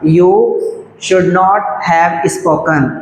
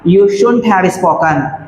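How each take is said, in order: First: Should and not are said as separate words. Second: Should and not merge into one short syllable.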